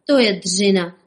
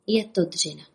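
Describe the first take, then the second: First: Louder, strained heave on each word; groaning with effort. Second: Said in the usual way. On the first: Acted. Rabbits straining at the handcar lever, groaning. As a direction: grunt it out like hauling a heavy lever. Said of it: "hekali králíci". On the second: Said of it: "To je dřina, hekali králíci".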